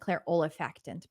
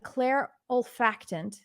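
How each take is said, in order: First: Every syllable of the word is pronounced. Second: One syllable of the word is dropped. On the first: "actually I'd be saying clair olfactant" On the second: "I usually cancel out that that second syllable, that third syllable"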